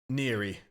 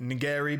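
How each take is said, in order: First: No hard g sound is pronounced in the word. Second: A hard g sound is pronounced in the word. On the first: The speaker calls it right. "but apparently it's Neri" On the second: The speaker calls it wrong. "I was calling it Nigeri because again, once again, it has the silent G in it"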